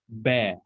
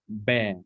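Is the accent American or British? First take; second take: British; British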